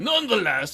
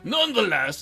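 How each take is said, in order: First: It is said in the Baron's put-on voice. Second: It is said in the Baron's put-on voice.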